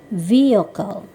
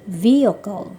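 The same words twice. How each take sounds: The two takes are said the same way.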